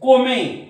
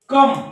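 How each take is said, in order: First: It is said as two syllables, 'ko-meh'. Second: It is said as one syllable, 'kum'. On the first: The speaker calls it wrong. "असं म्हणू नका" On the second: The speaker calls it right. "उच्चार हा अ होतो"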